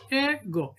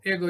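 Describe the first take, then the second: First: "ego" broken as e-go; split into syllables. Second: Said in the usual way. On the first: Shown as a demonstration. Teacher showing the answer, "ego" said beat by beat. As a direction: say "ego" in two separate beats. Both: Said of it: "ego is the right answer".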